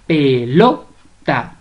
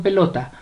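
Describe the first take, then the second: First: "Pelota" very slow, syllable by syllable, LO punched; stress on LO. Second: Said in the usual way. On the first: Shown as a demonstration. Teacher showing the strongest syllable, "Pelota" stressed on LO. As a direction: stretch "Pelota" and hit the LO. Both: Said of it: "La mayor fuerza de voz la lleva en lo".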